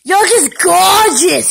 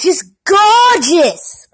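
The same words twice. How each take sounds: First: Said in the usual way. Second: Put-on slow, drawn-out Jersey accent on "gorgeous"; mock New Jersey accent, slow. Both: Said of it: "That's a Jersey accent".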